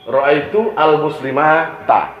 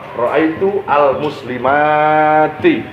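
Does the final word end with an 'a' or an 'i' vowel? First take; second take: a; i. First: The last word ends with an 'a' vowel. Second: The last word ends with an 'i' vowel. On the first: This is the ending one would normally expect. The speaker calls it wrong. "mestinya fathah" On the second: This is the ending actually used for feminine plurals. The speaker calls it right. "makanya kasroh"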